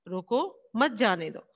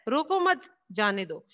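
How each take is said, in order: First: There is a pause right after 'roko'. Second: There is a pause right after 'mat'. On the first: The person leaving should be stopped. "रोको के बाद इसमें coma लगाया गया है" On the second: The person should be allowed to go. "रोको मत के बाद हमने कोमा लगाया"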